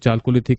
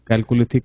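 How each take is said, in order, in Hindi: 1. यह शब्द 'ch' ध्वनि से शुरू होता है। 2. यह शब्द 'k' ध्वनि से शुरू होता है। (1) "कुछ लोग उसको चालकोलिथिक कहते हैं" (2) "कुछ लोग अपना उसको कैलकोलिथिक कहते हैं"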